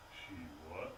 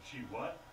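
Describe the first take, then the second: First: Very low, very soft repeat; stunned disbelief. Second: Low, soft disbelief; stunned question. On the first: Man absorbing bad news on phone, hushed disbelief. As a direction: barely voice it, sinking low. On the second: Man hearing bad news on phone, stunned. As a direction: ask it low, taken aback. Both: Acted.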